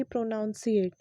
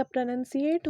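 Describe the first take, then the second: First: प्रोनाउंसिएट with an "ow", pro-NOUN-si-ate; wrong pronunciation. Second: प्रोनंसिएट with a short "uh", pro-NUN-si-ate; correct pronunciation. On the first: Teacher contrasts the wrong form for students: प्रोनाउंसिएट with "ow". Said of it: "ना कि". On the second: Teacher gives students the right form: प्रोनंसिएट with short "uh". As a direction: say प्रोनंसिएट with no "ow" sound. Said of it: "या प्रोनंसिएट होता है". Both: Shown as a demonstration.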